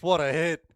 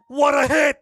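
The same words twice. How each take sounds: First: Louder, still buzzing, but no longer screaming; calmer excited replay call. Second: Roaring, high, all-out yell; goal shout. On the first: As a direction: come down from the shout, still thrilled. Replay reaction after goal. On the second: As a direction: scream it at the top of your lungs. Goal celebration call. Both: Real, not acted.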